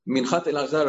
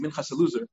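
First: The first word ends with a 't' sound. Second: The first word ends with an 's' sound.

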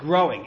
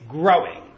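First: The word is said plainly, without extra force. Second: The word is said with strong, heavy force. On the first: Ordinary growth. "It's not just growing" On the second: Unusually strong, fast growth. "which sounds like it's stronger"

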